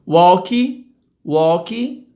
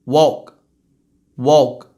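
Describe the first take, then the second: First: "walk" as "walky", rising; Brazilian pronunciation. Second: Low "walk" ending on k alone; true English pronunciation. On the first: Teacher mimicking Brazilians, "walk" with final i. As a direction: add "ee" after the k of "walk". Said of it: "vou falar como brasileiro falaria". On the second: Teacher's correct take, "walk" with no vowel. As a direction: finish "walk" with only a k. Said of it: "É só um k". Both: Shown as a demonstration.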